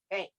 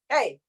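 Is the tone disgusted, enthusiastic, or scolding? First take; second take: disgusted; scolding. First: It is said with disgusted distaste. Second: It is said as a sharp scolding. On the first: The speaker is turned off by something. "as if you're really turned off by something" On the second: The speaker is telling someone off. "Or you're giving heck to some kid"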